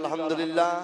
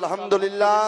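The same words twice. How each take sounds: First: It is said softly. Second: It is said loudly.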